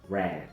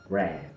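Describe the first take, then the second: Both takes have the same delivery.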